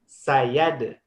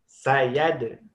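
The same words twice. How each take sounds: The two takes are said the same way.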